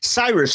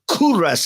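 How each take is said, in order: First: The name begins with an S sound. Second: The name begins with a K sound. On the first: This is the usual English form. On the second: This is the Persian form.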